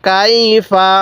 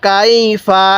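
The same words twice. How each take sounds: The two takes are said the same way.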